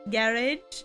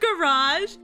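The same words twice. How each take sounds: First: It is said with a British pronunciation. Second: It is said with an American pronunciation. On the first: "weird ways they pronounce things, like um garage, garage" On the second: "instead of garage"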